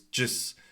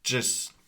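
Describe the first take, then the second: The two takes are said the same way.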